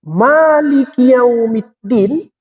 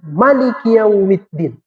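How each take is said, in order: First: The first vowel of Maliki is held long. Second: The first vowel of Maliki is kept short. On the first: "Boleh dibaca Malik panjang" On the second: "Boleh juga dibaca Malik pendek"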